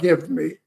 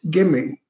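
First: The two words are said clearly and separately. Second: The two words are run together as one. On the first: The speaker calls it wrong. "not give me" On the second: The speaker calls it right. "it's gimme"

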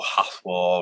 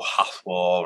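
First: The word is said with its sounds altered. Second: The word is said with its sounds altered.

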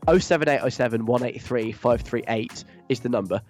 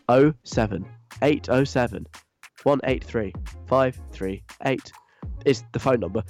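First: The number is read quickly. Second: The number is read slowly.

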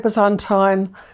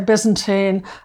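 First: Byzantine is pronounced the non-American way. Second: Byzantine is pronounced the American way. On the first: This is the speaker's own usual pronunciation. "I say Byzantine" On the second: This is how Americans say it. "Americans say Byzantine"

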